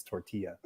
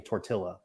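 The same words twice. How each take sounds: First: "tortilla" with a y sound, tor-TEE-ya; Spanish pronunciation demo. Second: "tortilla" with a spoken l, tor-TIL-la; anglicized "tortilla" with an L sound; wrong pronunciation demo. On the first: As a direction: say "tortilla" with a silent l. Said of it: "It's tortilla". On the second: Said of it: "That'd be like saying tortilla". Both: Shown as a demonstration.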